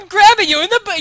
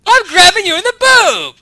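First: High, loud indignant announcement. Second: High shouted warning; loud warning shout. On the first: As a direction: declare it like you're offended. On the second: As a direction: yell it as a warning. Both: Shown as a demonstration. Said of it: "You're actually kind of indignant about it".

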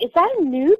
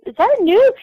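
First: Said in the usual way. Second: Much higher eager repeat of the question. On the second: Retold or imitated. Asking Alice again in excited disbelief. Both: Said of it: "I was like".

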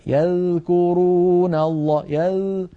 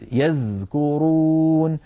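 First: Slow higher recitation, "يذكرون" with dh barely sounded; tongue barely touching the teeth in "يذكرون"; weakened dhal. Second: Slow recited "يذكرون" with a strong buzzing dh; clearly sounded dhal. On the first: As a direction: show the fault, the dh of "يذكرون" almost lost. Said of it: "إضعاف صوتها جدًا". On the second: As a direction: hold and voice the dh of "يذكرون". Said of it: "فلا بد من بيان صوتها". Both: Shown as a demonstration.

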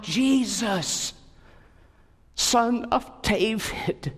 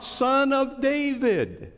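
First: High, slow pleading call; a beggar's cry for help. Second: High, slow desperate call; crying out. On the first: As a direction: call out to Jesus from the roadside. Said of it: "he cried out". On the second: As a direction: cry out over the crowd, pleading. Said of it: "here he's crying out". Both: A narrator's reading.

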